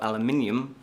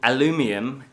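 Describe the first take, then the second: First: It is said with a non-American pronunciation. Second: It is said with an American pronunciation. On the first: "which is the correct way of saying it" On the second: "as the Americans say"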